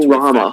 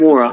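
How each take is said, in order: First: The name is said as Kurama. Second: The name is said as Kimura. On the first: The speaker calls it right. "It's Kurama" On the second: The speaker calls it wrong. "It's not Kimura"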